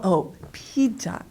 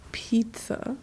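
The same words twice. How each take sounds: First: Pizza said the Korean way, like "pija"; drawn-out Korean-accented "pizza". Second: Hushed, higher, whispered question; puzzled echo. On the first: Listeners finally recognizing the word pizza, in a Korean accent. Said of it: "the accent, they don't understand". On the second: Korean listeners failing to catch her English word, puzzled whisper. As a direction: whisper it back, baffled. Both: Retold or imitated.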